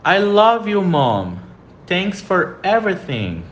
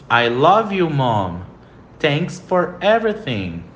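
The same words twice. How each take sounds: First: I love you, Mom, Thanks for everything said slowly, love stressed; slow model sentence. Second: I love you, Mom, Thanks for everything repeated slowly, love stressed; slow model sentence again. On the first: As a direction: read it clearly for students to repeat. (frase modelo dita devagar e clara) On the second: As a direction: repeat it for students to copy. (frase modelo repetida devagar) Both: Shown as a demonstration. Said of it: "repita a pronúncia comigo".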